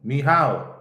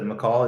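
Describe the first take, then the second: First: The name is said with Polish sounds. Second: The name sounds like English McCall. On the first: The speaker calls it right. "That's how you say it, right?" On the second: The speaker calls it wrong. "Instead of McCall"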